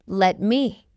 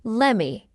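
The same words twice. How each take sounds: First: "Let me" as two separate words; full form. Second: "Lemme" run together as one word, no t; reduced form. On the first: Teacher explains what lemme means, full form. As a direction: sound the t in "Let me". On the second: Teacher shows learners the short form, reduced. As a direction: blend it into "Lemme". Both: Shown as a demonstration.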